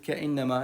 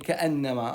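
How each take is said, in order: First: The vowel after the glottal stop is 'i'. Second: The vowel after the glottal stop is 'a'. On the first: The speaker calls it wrong. "خاف قلت كإنما" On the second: The speaker calls it right. "لا هي كأنما"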